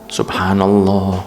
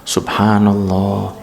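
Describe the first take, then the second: The two takes are said the same way.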